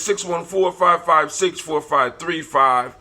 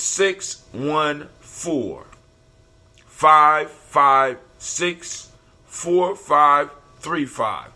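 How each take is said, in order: First: The number is read at a normal pace. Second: The number is read at a slower pace.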